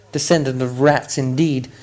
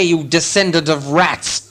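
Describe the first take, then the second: First: Understated indignant muttered repeat; mildly huffy, lowered indignation; offended echo. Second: Slow, emphatic contempt; drawn-out scornful challenge; angry insult. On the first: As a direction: repeat the insult with wounded dignity. Bilbo echoes the insult, offended. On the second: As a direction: spit out the insult as an accusation. Thorin insults Bilbo. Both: A narrator's reading.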